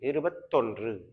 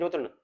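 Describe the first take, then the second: First: The word ends with a full 'ndru' sound. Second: The word ends with a reduced 'nnu' sound. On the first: This is the written form. "எழுத்துப்பூர்வமா எழுதுனா" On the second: This is the everyday spoken form. "நம்ம பேச்சு வழக்குல சொல்லுவோம் இருபத்தொன்னு"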